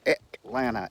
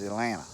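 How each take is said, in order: First: The middle T sound is clearly pronounced. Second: The middle T sound is dropped completely. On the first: "E with a T" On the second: "E, no T's"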